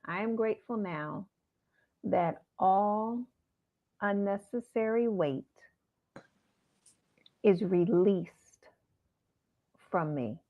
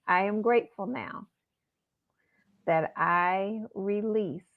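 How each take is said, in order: First: Slow mantra. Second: Slow, measured mantra with long pauses. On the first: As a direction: lay each phrase down gently. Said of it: "let me give it to you again". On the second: Teaching listeners a mantra, slow and measured. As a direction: recite each word slowly for listeners. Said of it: "So Imma say it slow". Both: Shown as a demonstration.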